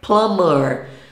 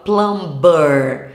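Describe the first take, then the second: First: The b in the middle is silent. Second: The b in the middle is pronounced. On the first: The speaker calls it right. "Uma outra palavra com B mudo" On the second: The speaker calls it wrong. "Todo mundo fala plumber, achando que tá arrasando"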